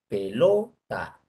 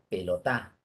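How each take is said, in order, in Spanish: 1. La sílaba tónica es la del medio. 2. La sílaba tónica es la última. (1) "En la penúltima" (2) "si pones en la última sílaba sería pelotá"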